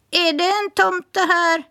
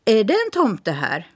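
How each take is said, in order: First: High parrot voice repeating the question; parrot echoing. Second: Said in the usual way. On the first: Acted. Parrot echoing Smirke's question, high bird voice. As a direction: mimic it back like a parrot. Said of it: "svarade rösten tätt in på honom". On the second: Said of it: "Han ropade".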